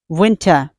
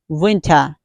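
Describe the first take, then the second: First: The final R is dropped, ending in ah. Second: The final R is dropped, ending in ah.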